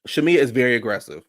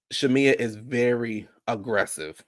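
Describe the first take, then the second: First: Said in the usual way. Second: "Shamia is very aggressive" said slowly, word by word; slow emphasis. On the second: Real, not acted. Host insisting to viewers about Shamia, slow emphasis on "very aggressive". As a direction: draw out "very aggressive" to drive it home.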